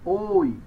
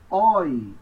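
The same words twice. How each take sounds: First: The diphthong is closed and held long. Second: The diphthong is open and said briefly. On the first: "É um som fechado e longo" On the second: "quando vêm no final são breves... você vai pronunciá-los abertos"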